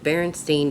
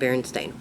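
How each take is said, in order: First: The last syllable rhymes with 'mine'. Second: The last syllable rhymes with 'rain'. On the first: The speaker calls it wrong. "I remember Berenstein" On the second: The speaker calls it right. "The reality is it's Stain"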